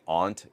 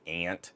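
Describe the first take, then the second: First: The vowel is a broad, open 'ah' sound. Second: The vowel is a flat 'a' like in 'cat'. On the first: "I've kind of always been the soft A guy. Like I say aunt" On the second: "instead of ant"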